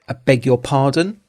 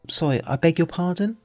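First: It sounds angry and challenging. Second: It sounds like a polite request to repeat.

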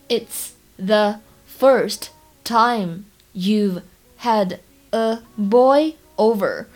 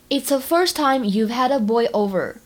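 First: The sentence is spoken slowly and carefully. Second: The sentence is spoken at a normal pace.

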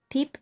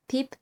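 The two takes are said the same way.

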